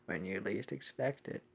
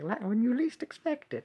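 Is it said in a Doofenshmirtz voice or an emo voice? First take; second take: emo voice; Doofenshmirtz voice. First: It is said in an emo character voice. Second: It is said in a Doofenshmirtz impression voice.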